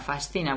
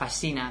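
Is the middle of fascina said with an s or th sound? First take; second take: th; s. First: The middle is said with an s then th. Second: The middle is said with only an s sound. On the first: This is how it sounds in Spain. "S and then a th. ... Fascina would be for us" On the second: This is how it sounds in Latin America. "In Latin America, you wouldn't know there was a C in there. ... Like almost double S"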